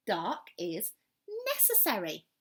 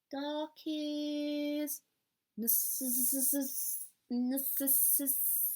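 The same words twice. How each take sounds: First: Said in the usual way. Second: Higher, stuck on "necess-", trying to say it; stumbling. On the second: Acted. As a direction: trip over "necess-" twice, unsure. Owl stumbles over the new word.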